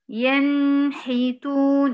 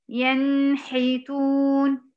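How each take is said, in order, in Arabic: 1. النون بتتمدّ أكتر من اللازم. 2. النون بتتمدّ أكتر من اللازم.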